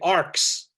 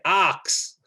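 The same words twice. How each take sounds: First: It is said in an American accent. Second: It is said in a non-American accent. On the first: "Americans say arcs" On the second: "I say arcs"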